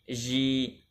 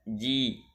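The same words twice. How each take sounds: First: The consonant is hissy, close to sh. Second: The consonant is a hard, voiced j. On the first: The speaker calls it wrong. "mengucapkan jim dekat dengan shin" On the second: The speaker calls it right. "Yang benar adalah mengucapkan huruf jim dengan syiddah dan jahar"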